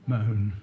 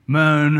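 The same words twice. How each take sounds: First: A low, dropped single word "Moan"; low flat answer. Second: "Moan" said again, louder and firmer; punched repeat. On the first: Teacher answering his own question, low "Moan". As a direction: let "Moan" sink down, low and soft. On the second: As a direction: hit "Moan" hard the second time. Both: Shown as a demonstration. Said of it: "So what do they do?".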